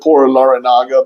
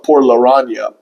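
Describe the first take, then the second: First: The name ends with a hard 'naga' sound. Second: The name ends with a soft 'nha' sound. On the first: This is how many people say it. The speaker calls it wrong. "people pronounce it" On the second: This is the actual pronunciation. The speaker calls it right. "but it's actually"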